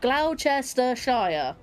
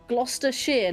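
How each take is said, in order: First: The word is said with five syllables. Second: The word is said with three syllables. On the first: The speaker calls it wrong. "not Gloucestershire, which is five syllables" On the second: The speaker calls it right. "It's literally three syllables"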